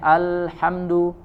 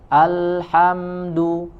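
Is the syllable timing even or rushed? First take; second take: rushed; even. First: The syllables are rushed and unevenly timed. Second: Each syllable gets the same even length. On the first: The speaker calls it wrong. "terlalu cepat atau tidak sama" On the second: The speaker calls it right. "harusnya alhamdu"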